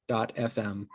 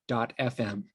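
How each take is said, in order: Both takes have the same delivery.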